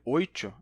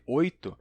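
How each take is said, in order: First: The t is hushed, sounding like 'ch'. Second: The t is a plain, crisp t.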